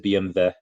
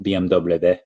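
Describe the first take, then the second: First: The letters are said with German pronunciation. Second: The letters are said with American English pronunciation. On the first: "The German. Yes, it is B M W" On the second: "not B M W"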